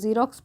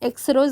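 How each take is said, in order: First: The word begins with a z sound. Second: The word begins with an eks sound. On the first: The speaker calls it right. "ज के रूप में हो रही है" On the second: The speaker calls it wrong. "एक्सरोज नहीं पढ़ते हैं"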